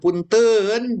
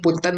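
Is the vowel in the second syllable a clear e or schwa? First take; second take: clear e; schwa. First: The second syllable has a clear e vowel. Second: The second syllable has a schwa vowel. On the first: The speaker calls it wrong. "bukan punten" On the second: The speaker calls it right. "punten itu pakai E, E, E pepet ya"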